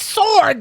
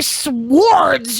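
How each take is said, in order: First: The W sound is silent. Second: The W sound is pronounced. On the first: The speaker calls it right. "The W is silent" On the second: The speaker calls it wrong. "You don't say swords"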